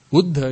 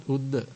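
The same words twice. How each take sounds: First: "Uddha" with an aspirated dh; correct "Uddha". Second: "uddha" with a plain d; no breath after the d in "uddha"; mispronounced "uddha". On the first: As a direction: push breath through the dh of "Uddha". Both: Shown as a demonstration. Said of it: "is not uddha".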